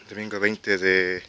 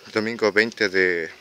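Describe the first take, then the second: No difference in how they are said.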